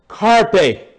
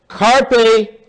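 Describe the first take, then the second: No difference in how they are said.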